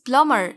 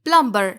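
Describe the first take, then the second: First: No b sound is heard after the m. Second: A b sound is heard after the m. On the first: The speaker calls it right. "यहाँ बी silent है" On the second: The speaker calls it wrong. "बिल्कुल नहीं"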